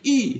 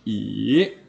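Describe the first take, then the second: First: The syllable has a falling tone. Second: The syllable has a rising tone. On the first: "tadi I" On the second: "sekarang I"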